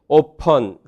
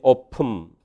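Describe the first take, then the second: First: The last syllable has a schwa before n. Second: The last syllable is a syllabic m sound. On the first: "오펀 그렇게 발음하든지" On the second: "오품 이렇게 발음되고요"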